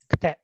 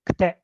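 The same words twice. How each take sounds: No difference in how they are said.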